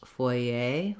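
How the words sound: It is said with an English accent. "the English pronunciation, though, is not exactly the same as the French"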